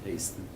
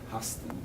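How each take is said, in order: First: The name is given a non-German pronunciation. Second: The name is given a German pronunciation. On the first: This is how the family said the name. "not Hasten" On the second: This is how the officials said the name. "they pronounced it Hasten"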